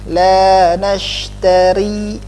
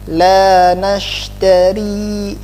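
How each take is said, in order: The two takes are said the same way.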